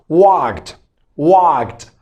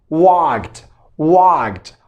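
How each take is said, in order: Both takes have the same delivery.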